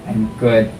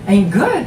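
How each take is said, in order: First: The voice sounds flat and unhappy. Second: The voice sounds bright and cheerful. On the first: The speaker does not really feel good. The speaker calls it wrong. "you don't sound good" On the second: The speaker really feels good. The speaker calls it right. "then say"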